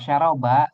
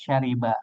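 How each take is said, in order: First: The middle vowel is an 'a' sound. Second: The middle vowel is an 'i' sound. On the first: This is a dialect form. "sebetulnya beda dialek istilahnya" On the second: This is the standard form. "jadi kita bacanya di sini de- dengan kasroh"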